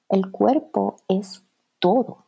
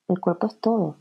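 First: Slow, with the stress on "cuerpo" and a rising end; slow emphatic. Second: Quieter, with the weight on "todo" and a falling end; falling emphasis. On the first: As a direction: draw out "cuerpo" and let "todo" rise. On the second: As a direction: land firmly on "todo" and drop. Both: Shown as a demonstration.

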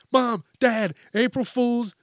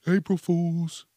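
First: Put-on higher, sing-song kid gotcha; spring the joke like a pleased kid; cheeky kid reveal. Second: Slow, mocking drawn-out April Fools; sarcastic April Fools. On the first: Kid reveals the prank to parents, higher cheeky gotcha. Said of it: "And they're like". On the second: Mocking the soap pranksters, slow sarcastic April Fools. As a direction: sneer the words out slowly.

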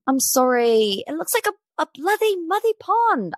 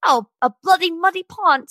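First: High-pitched, hammed-up British accent; badly faked British accent, drifting Irish with a lisp. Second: Attempted British accent, pitched higher, lilting; badly faked British accent for a celebrity quote. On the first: Shown as a demonstration. Podcast host retrying a celebrity's pond complaint, hammed-up British accent. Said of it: "Let me get my best [name] on". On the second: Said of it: "Sorry, that was horrible".

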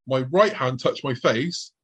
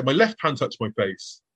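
First: Slow line, RIGHT picked out; "right" stressed, drawn-out delivery. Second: Slow line, LEFT picked out; "left" stressed, falling at the end. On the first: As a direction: lean on "right" to set it against the other hand. Contrasts right hand with left. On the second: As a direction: lean on "left" to set it against the other hand. Contrasts left hand with right. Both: Shown as a demonstration.

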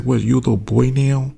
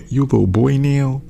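First: A hint of a teasing Pandora, pitched higher; mock Pandora taunt. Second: Mocking LA accent, higher and louder; sassy LA girl taunt in a pitched-up LA accent. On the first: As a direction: taunt him lightly like Pandora. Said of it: "Pandora's like". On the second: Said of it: "in that damn L A S accent".

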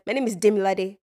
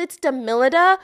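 First: Demilade said quickly with Yoruba tones; Demilade, tonal and unanglicized; Nigerian pronunciation. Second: Demilada with an -ah ending; mistaken correction. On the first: Shown as a demonstration. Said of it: "if I meet a Nigerian". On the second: Retold or imitated. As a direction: misname it Demilada, stressing MIL. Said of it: "and you're like".

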